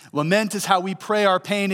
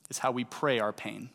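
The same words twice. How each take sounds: First: Higher and louder, stressing "how"; emphatic restatement. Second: Said in the usual way. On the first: Shown as a demonstration. Preacher driving home his theme to the congregation, proclaimed. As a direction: proclaim "Lament is how we pray our pain" with force on "how".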